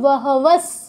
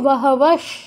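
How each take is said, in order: First: The final s is made with the tongue at the teeth. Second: The final s is made with the tongue curled back. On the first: "দন্ত স থাকলে তখন উচ্চারণ করতে হতো" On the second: "মূর্ধন্য ষ থাকলে উচ্চারণ করতে হতো মূর্ধন্য ষ হসন্ত"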